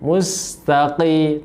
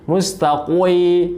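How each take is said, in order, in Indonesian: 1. Q-nya tebal tapi tidak berlebihan. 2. Q-nya terlalu tebal dengan glide w. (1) "tapi juga tidak berlebihan" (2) "berlebihan sehingga menjadi mustaqwi"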